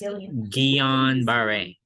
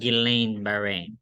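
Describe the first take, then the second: First: The name is pronounced the French way. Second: The name is pronounced the English way. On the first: The speaker calls it right. "it always sounds better in French" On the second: The speaker calls it wrong. "It's not"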